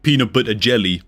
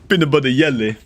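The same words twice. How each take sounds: First: Jelly begins with an English J sound. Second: Jelly begins with a Y sound. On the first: "they don't say like peanut butter jelly" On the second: "That's how a Swede would say that"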